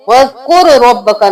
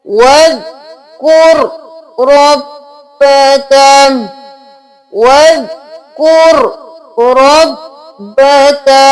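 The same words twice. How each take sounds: First: वज़कुर रब्बका said fast with the r split off; वज़कुर रब्बका without joining kaf and ra; quick वज़कुर रब्बका; wrong reading. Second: वज़कुर रब्बका slow with kaf joined to ra; slow careful वज़कुर रब्बका; correct reading. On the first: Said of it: "नहीं करना". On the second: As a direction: slowly join वज़कुर to रब्बका. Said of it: "रॉ के साथ मिलाना है". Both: Shown as a demonstration.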